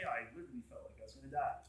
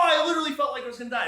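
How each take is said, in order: First: Quick, soft and low, stunned; fast quiet awed confession; hushed awe. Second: Loud, high, rushed and overwhelmed; fast, loud cry of awe; awestruck exclaim. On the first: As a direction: murmur it as if still shaken. John's words, second take, hushed. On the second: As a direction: blurt it out as if in shock. Ezekiel's awestruck cry, first take. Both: Retold or imitated.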